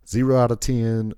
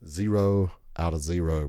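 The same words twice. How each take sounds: First: Louder and higher, punching ZERO; emphatic verdict. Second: Said in the usual way. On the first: Shown as a demonstration. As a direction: slam the rating down hard.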